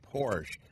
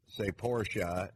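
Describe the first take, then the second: First: The name is said the American way. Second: The name is said the German way. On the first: This is how it is said in the United States. "In the United States, you can say Porsche" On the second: This is how it is said in Germany. "in Germany, say Porsche"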